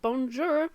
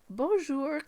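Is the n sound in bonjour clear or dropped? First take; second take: clear; dropped. First: The n sound is clearly pronounced. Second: The n sound is mostly dropped. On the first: The speaker calls it wrong. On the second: The speaker calls it right.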